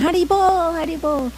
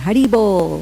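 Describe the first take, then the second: First: Very high, imitated happy call; group cheer. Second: Said in the usual way. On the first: Devotees answer the weak old mother, imitated high cheer. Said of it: "And they all went". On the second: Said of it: "and she went".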